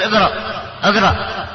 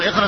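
First: اقرأ said with an a vowel at the start, aqraʔ; the mistake: start اقرأ on a; wrong aqraʔ. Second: اقرأ with an i vowel at the start, iqraʔ; correct iqraʔ. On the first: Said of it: "هذا خطأ". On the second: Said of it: "بدل ما تقول". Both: Shown as a demonstration.

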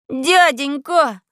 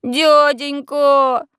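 First: Drawn-out pleading cry; plaintive wail. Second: Long drawn-out begging cry; pitiful pleading. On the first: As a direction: whine it like a scared boy. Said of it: "завопил я жалобно". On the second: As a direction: beg like a street urchin. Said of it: "самое жалкое из возможных обращений". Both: A narrator's reading.

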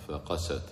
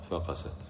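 First: فقست with the voice raised a little at the qaf; stress on the qaf. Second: Said in the usual way. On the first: Shown as a demonstration. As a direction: lift فقست slightly on the qaf. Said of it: "أنا رفعت صوتي قليلًا عند القاف". (فقست مع رفع الصوت عند القاف) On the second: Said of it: "في الثانية ما رفعت".

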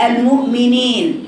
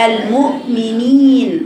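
First: المؤمنين ending "nayn", i opened to e; slowly bend the last vowel of المؤمنين towards e; wrong tilted i. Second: المؤمنين slowly, ending in a held "neen"; correct pure i. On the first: Teacher showing the wrong reading, ending opened to e. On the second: Teacher modelling the correct word, pure long ee. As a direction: keep a clean long ee in المؤمنين. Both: Shown as a demonstration. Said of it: "وليست".

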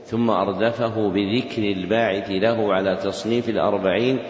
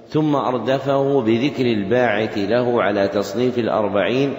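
No difference in how they are said.

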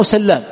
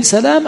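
First: سلام with a long doubled L. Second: سلام with one short L; single light L. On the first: Teacher puzzling over an unmarked name, L doubled in سلام. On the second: Teacher puzzling over an unmarked name, single L in سلام. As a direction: say سلام lightly, L not doubled. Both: Shown as a demonstration. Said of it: "ما في تخفيف ولا تشديد".

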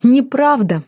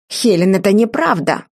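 First: High, mocking repeat of the denial; scoffing, pitch lifted; derisive echo. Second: Stern, restrained protest; brother's frowning objection; frowning denial. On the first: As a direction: throw the word back scornfully. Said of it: "Хелен расхохоталась". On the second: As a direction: deny it firmly, displeased. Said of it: "и нахмурился". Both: A narrator's reading.

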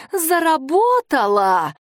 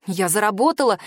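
First: Insistent cry. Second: Said in the usual way. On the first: A narrator's reading. Girl repeats louder.

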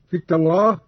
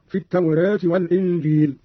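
First: "التوراة" with open long a, at-tawrah; fath on التوراة. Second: "التوراة" with long a tilted towards e; taqlil on التوراة. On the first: Teacher demonstrates fath, open a in "التوراة". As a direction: say "التوراة" with a fully open final vowel. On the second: Teacher demonstrates taqlil, e-coloured vowel in "التوراة". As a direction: say "التوراة" as at-tawreh, vowel half-fronted. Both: Shown as a demonstration. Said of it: "بالفتح والتقليل في لفظ التوراة".

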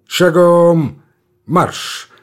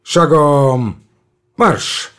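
First: Drill command. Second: Shouting drill sergeant. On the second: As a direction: bark it across the parade ground. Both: A narrator's reading. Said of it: "приказывает Тучапский".

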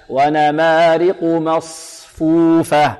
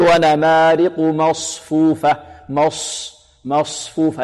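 First: Slow chant, lips unrounded on ṣ of مصفوفة; unrounded saad. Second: Lips pursed on the ṣ of مصفوفة, as a mistake; wrongly rounded lips. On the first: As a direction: hold the ص of مصفوفة without pursing the lips. (ترتيل بطيء دون ضم الشفتين في صاد مصفوفة) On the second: (نطق خاطئ بضم الشفتين في صاد مصفوفة) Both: Shown as a demonstration. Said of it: "نحذر من ضم الشفتين فيها".

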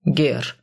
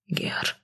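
First: Said in the usual way. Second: Quick whispered repeat; hasty whisper. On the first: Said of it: "исправил его Сай". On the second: A narrator's reading. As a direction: echo the word in a frightened whisper. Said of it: "поспешно повторил мужчина". (поспешный испуганный шёпот)

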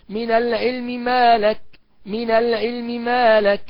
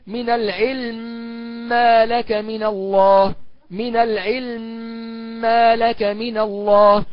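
First: Slow من العلم ما لك with a brief snatched vowel on the first م; vowel snatching. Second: Slow من العلم ما لك with the م merged into the next م; full merging. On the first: Teacher demonstrating the snatched-vowel reading. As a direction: lightly sound the meem's vowel. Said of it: "والاختلاس هكذا". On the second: Teacher demonstrating full assimilation. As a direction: chant it, doubling the meem. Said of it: "تقرأ بالإدغام المحض هكذا". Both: Shown as a demonstration.

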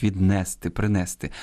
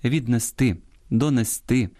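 First: Віднести, принести stressed on -не-; common mistaken stress. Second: Віднести, донести stressed on final -ти; stress on last syllable. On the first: Host quotes a widespread fault, stress on -не- in віднести, принести. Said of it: "дуже поширений недолік". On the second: Host gives proper Ukrainian, final-syllable stress on віднести, донести. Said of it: "українською правильно". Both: Shown as a demonstration.

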